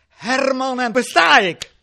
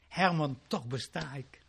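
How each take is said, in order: First: It is said in a plain, ordinary tone. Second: It is said in a soft, loving tone. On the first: The speaker calls it wrong. "Hij zei het niet zoals ik het nu zeg" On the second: The speaker calls it right. "hij zei het heel lieflijk"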